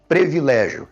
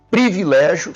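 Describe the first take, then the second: First: Privilégio as "pre-vi-LÉ-gio"; privilégio with E in first syllable. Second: Privilégio as "pri-vi-LÉ-gio"; privilégio with I in first syllable. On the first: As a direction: open privilégio on "pre" instead of "pri". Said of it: "não existe privilégio". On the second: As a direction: open privilégio on a clear "pri". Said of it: "somente com I". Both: Shown as a demonstration.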